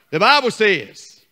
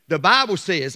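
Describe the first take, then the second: First: Slow, stressed BI-ble says; proper Bible says. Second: Said in the usual way. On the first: Shown as a demonstration. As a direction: Bible says, drawn out and weighty. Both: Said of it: "not B Raf".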